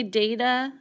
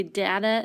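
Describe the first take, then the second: First: DATA said DAY-tuh, long a. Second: DATA said DAT-uh, short a as in cat. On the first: Teacher telling students how they say the word, long-a DAY-tuh for data. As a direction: say "data" with a DAY first syllable. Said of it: "sometimes when I say data". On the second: Teacher showing students how others say it, short-a DAT-uh for data. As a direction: say "data" with a DAT first syllable. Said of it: "you might hear other people say data". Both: Shown as a demonstration.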